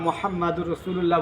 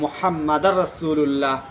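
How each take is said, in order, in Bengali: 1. Muhammad-এর পরের স্বরধ্বনি হলো 'u' (dur)। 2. Muhammad-এর পরের স্বরধ্বনি হলো 'a' (dar)। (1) "সর্ব জায়গায় আমরা মোহাম্মদুর রসুল্লাহ বলি" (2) "যেখানে আমরা দু বলি ওখানে উনি দায় উচ্চারণ করেন"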